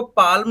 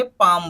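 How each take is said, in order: First: पाल्म said with the L sounded, as a warning; पाल्म with an audible L; wrong pronunciation. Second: पाम with a silent L, just paam; पाम, L dropped, falling tone; correct pronunciation. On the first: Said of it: "इसको पाल्म नहीं बोलेंगे". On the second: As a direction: say पाम cleanly with no L. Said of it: "पाम बोलेंगे". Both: Shown as a demonstration.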